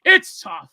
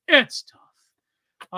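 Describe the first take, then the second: First: Said in the usual way. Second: Hushed, breathy whisper; whispered aside. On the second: Real, not acted. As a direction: repeat it under your breath in a whisper. Repeats same words in a whisper.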